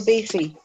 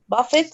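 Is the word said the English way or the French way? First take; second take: French; English. First: It is said ending in a vowel, no t. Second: It is said with a final t sound.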